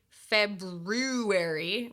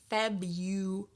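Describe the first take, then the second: First: The 'r' after 'Feb' is pronounced, as spelled. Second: The 'r' after 'Feb' is dropped. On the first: The speaker calls it wrong. "We don't say February" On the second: The speaker calls it right. "We say Febu"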